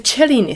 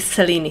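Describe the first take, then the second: First: The name is said with an Italian pronunciation. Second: The name is said with an English pronunciation. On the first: This is how the name should be pronounced. "some people call it the Cellini spiral, and they are right. That's how it should be pronounced" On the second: This is how the beading community usually says it. "the more established pronunciation in bead community"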